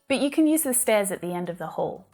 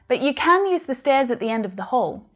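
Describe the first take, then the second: First: The word can has a weak schwa vowel. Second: The word can has a full vowel.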